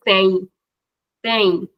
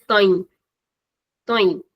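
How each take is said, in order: First: Said in the usual way. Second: Tem with its vowel closed and shortened; closed short vowel. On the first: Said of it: "it's the normal sound". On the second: Shown as a demonstration. Teacher contrasting the plural form, closed vowel in tem. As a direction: keep the mouth fairly closed on tem. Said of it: "shortening the sound of the vowel".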